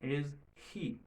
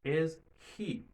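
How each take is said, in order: First: The words stay separate and the h is heard. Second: The same.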